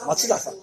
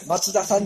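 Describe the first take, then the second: First: The name has the Kansai pitch pattern. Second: The name has the Kanto pitch pattern. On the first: "だけど多分関西の方は" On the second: "関東と関西で、イントネーションが逆だと思う。"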